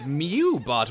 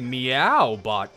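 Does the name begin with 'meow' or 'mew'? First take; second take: mew; meow. First: The first syllable sounds like 'mew'. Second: The first syllable sounds like 'meow'. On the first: The speaker calls it wrong. "I pronounced it Mewbot" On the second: The speaker calls it right. "when I meant to say Meowbot"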